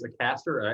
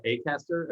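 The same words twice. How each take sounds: First: "Acaster" with a short, weak "uh" first; unstressed first vowel. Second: "Acaster" starting with a long "ay"; long A first. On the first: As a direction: begin "Acaster" like "uh-CAST-er". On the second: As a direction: begin "Acaster" like "AY-cast-er". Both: Shown as a demonstration. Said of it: "I think it's Acaster".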